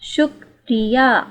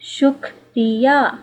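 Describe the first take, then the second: No difference in how they are said.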